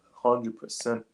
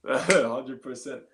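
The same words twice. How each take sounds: First: Said in the usual way. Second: Drawn-out, amused hundred percent; slow laughing agreement. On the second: Real, not acted. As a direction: stretch it out slowly through a laugh.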